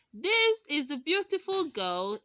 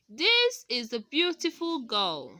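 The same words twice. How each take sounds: First: Put-on "This is a beautiful girl" said with the voice rising at the end. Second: Put-on "This is a beautiful girl" com tom descendente no fim; falling tone. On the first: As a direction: lift the voice up on "girl". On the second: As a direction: drop the voice on "girl". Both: Shown as a demonstration. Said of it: "is a statement".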